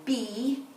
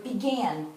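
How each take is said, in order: First: "Be-g-an" sounded out as Be, g, an with long gaps; "Be-g-an" slowly, pausing between each part; stretched out in parts. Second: Said in the usual way. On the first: Shown as a demonstration. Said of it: "stretch that second part out". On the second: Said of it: "work on the second part of the word".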